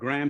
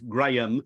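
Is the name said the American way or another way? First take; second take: American; another way. First: The name is said in the American way. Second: The name is said in a non-American way. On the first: This is how Americans say it. "Americans pronounce it Graham" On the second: This is the strictly correct form. "strictly speaking, it is Graham"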